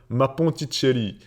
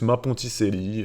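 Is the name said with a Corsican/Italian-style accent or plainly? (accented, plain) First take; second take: accented; plain. First: It is said in a Corsican or Italian accent. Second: It is said in an ordinary French accent. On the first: "Je te dis avec l'accent, t'as vu" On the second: "c'est juste ma Ponticelli"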